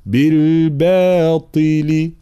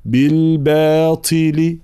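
First: "بالباطل" with a heavy, firm ط; firm emphatic ta. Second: "بالباطل" with a breathy, half-whispered ط; wrong breathy ط in "بالباطل". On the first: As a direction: stop the ط in "بالباطل" hard with no breath. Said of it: "هذا صوت الطاء". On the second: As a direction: let air leak on the ط of "بالباطل". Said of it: "لا، ليست طي". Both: Shown as a demonstration.

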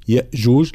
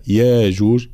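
First: "يأجوج" with a glottal stop after ya; with hamza. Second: "ياجوج" with a long open "yaa"; madd without hamza. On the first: Teacher showing the reading to avoid, "يأجوج" with hamza. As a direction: cut the first syllable of "يأجوج" with hamza. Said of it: "لا يقرأها". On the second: Teacher showing Qalun's reading, "ياجوج" with long a. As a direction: draw out "يا" in "ياجوج", no glottal stop. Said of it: "بالمد إبدال الهمزة". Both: Shown as a demonstration.

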